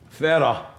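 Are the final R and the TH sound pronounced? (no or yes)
no. It is said without the final R or TH. "one of the features is the lack of the R after a vowel"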